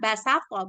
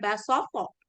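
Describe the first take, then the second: First: The s sound is plain and light. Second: The s sound is emphatic and heavy. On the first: The speaker calls it right. "asli asli katanya itu kan basato" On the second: The speaker calls it wrong. "bukan basoto"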